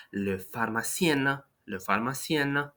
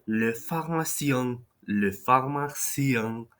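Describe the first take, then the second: First: Pharmacien with a clear N, no nasal vowel; non-nasal French ending. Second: Pharmacien ending in a nasal vowel; nasal French ending. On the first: Teacher shows feminine pharmacienne without nasal. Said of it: "there is no nasal sound there". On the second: Teacher shows the masculine nasal ending. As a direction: say le pharmacien with a nasal final sound. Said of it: "make that nasal sound". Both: Shown as a demonstration.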